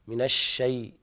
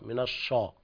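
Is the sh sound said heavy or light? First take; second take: light; heavy. First: The sh sound is light and thin. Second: The sh sound is heavy and thick. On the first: The speaker calls it right. "الشين ليست من حروف التفخيم" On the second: The speaker calls it wrong. "لا تقول أعوذ بالله من الشيطان، من الشا"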